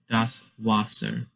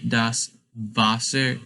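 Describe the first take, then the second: First: Wasser begins with a W sound. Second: Wasser begins with a V sound. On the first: The speaker calls it wrong. "instead of das Wasser" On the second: The speaker calls it right. "you say it with sort of with a V in the beginning instead of a W"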